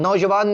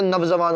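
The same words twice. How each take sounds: First: "नौजवान" starting nau, no v after it; wrong form demonstrated. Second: "नवजवान" starting nav with a v; correct form demonstrated. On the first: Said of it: "ये गलत शब्द है". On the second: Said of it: "तो नवजवान होता है". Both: Shown as a demonstration.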